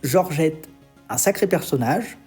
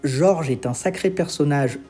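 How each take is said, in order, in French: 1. Il y a une pause juste après le prénom. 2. Ça enchaîne sans pause après le prénom. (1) "selon si je fais une pause ou non" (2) "selon si je fais une pause ou non"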